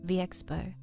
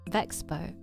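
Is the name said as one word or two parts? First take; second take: two parts; one word. First: The letter V is said apart from Expo. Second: The name is run together as one word. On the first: The speaker calls it wrong. "V-Expo is something entirely different" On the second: The speaker calls it right. "The owner refers to it as Vexpo"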